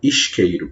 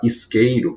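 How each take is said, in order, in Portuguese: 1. O s tem som de chiado, como sh. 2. O s é um som de s sibilante normal. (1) "eles falam isqueiro, pronunciam dessa forma" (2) "como nós falamos aqui"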